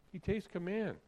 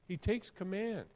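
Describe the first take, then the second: No difference in how they are said.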